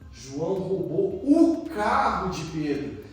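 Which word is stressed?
carro. The emphasis falls on the word carro. What was lost was the car. "Nossa, ele perdeu o carro, vai andar a pé"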